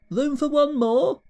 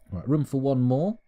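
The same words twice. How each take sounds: First: Much higher, slow questioning echo; mock disbelief, rising high; incredulous echo. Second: Said in the usual way. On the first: Echoes own words, incredulous.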